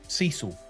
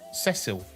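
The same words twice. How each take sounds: First: The name is said with American pronunciation. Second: The name is said with British pronunciation. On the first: "that's how the Americans pronounce it" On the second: "in U K pronunciation, this is Cecil"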